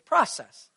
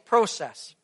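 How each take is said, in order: First: The word has an American pronunciation. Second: The word has a Canadian pronunciation. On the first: "down here, you guys don't say that. You say process" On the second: "I say process"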